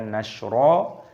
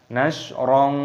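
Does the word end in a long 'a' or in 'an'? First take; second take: long a; an. First: The word ends in a long 'a' vowel. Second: The word ends in an 'an' nasal sound. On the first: The reciter stops at the end of the verse. "Ketika kita berhenti maka dibaca nashra" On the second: The reciter joins it to the next verse. "kalau kita gandeng dengan ayat yang keempat"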